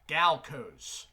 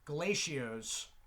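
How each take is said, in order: First: No vowel sound comes between L and C. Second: An extra vowel sound follows the L. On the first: The speaker calls it right. "there is no I between the L and C" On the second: The speaker calls it wrong. "I used to pronounce this"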